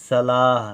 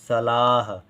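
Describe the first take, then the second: No difference in how they are said.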